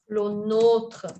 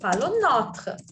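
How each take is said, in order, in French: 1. La voyelle se prononce comme le pronom accentué nôtre. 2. La voyelle se prononce comme le possessif notre. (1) "il y a un accent pour différencier euh, du déterminant possessif notre"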